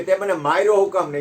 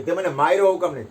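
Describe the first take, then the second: First: Loud, raised demand of why he was struck; angry demand. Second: Loud, raised demand repeated; angry demand. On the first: Spat-upon man grabbing the king's neck, angrily demanding. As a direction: confront him hotly, wanting an answer. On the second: Man holding the king by the neck, loudly repeating his angry demand. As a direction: press the question hard again. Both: Retold or imitated.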